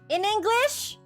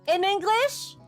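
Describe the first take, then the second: No difference in how they are said.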